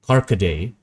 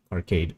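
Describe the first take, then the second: First: "Carcade" in three syllables, kar-ka-DAY, rising; trial pronunciation. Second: "Arcade" read as spelt, ending like English "cade"; pronounced as spelt. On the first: Trying the unfamiliar drink name another way, "Carcade" as kar-ka-day. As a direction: sound out "Carcade" with a final "day". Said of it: "Am I supposed to say". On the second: Guessing aloud at an unfamiliar drink name, "Arcade" pronounced as it looks. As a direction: say "Arcade" with its end as one syllable, "kade". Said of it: "I just pronounce it how it looks". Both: Shown as a demonstration.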